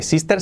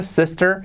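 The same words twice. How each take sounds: First: "sister" as SEES-ter with tapped r; wrong Spanish-style vowel. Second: "sister" as SES-tur with English r; native English vowel. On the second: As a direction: model "sister" with a lax, e-like i. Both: Shown as a demonstration. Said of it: "fijaos, nada de sister".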